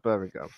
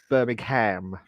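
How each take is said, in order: First: It is said in a British accent. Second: It is said in an American accent.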